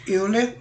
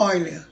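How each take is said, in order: First: "Euler" said letter for letter, opening on "eu"; pronounced as spelt. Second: "Euler" said as "Óiler", opening on "oi"; correct pronunciation. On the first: Teacher showing how the name is written, "Euler" said as spelt. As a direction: say "Euler" as written in Portuguese, eu-ler. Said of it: "Escreve-se Euler em português". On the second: Teacher correcting the spelling-based reading, "Euler" pronounced "Óiler". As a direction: say "Euler" the German way, OY-ler. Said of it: "mas a pronúncia é Euler". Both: Shown as a demonstration.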